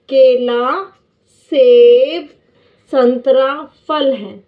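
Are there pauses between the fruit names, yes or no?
yes. There are short pauses after each fruit name.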